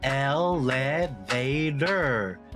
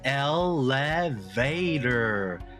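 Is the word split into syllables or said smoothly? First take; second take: split; split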